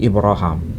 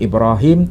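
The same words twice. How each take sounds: First: The name is read the Hisham way. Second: The name is read the Hafs way. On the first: This is how the copy in hand reads it. "terbaca ... tapi Ibrahim" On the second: This is how the other copy of the text reads it. "bukan Ibrahim"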